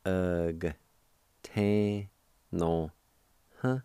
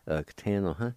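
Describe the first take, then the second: First: "Ug, tan, no, huh" in isolated syllables with pauses; held, separated syllables of "Ug, tan, no, huh"; syllable-by-syllable pronunciation. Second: "Ug, tan, no, huh" run together as one word; natural-speed "Ug, tan, no, huh"; joined-up pronunciation. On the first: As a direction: sound out "Ug, tan, no, huh" one piece at a time. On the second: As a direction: blend "Ug, tan, no, huh" without gaps. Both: Shown as a demonstration. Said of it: "pronounce the G sound with the V like this".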